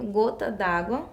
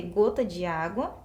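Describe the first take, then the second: First: "gota d'água" with "de" merged into "água"; elided E. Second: "gota de água" with the E of "de" sounded; unelided "de". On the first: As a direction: drop the E, running "d'água" together. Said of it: "a gente tem a omissão da letra E". ("gota d'água" com o E omitido) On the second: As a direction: keep "de" and "água" as separate sounds. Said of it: "ao invés de eu falar". ("gota de água" sem omitir o E) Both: Shown as a demonstration.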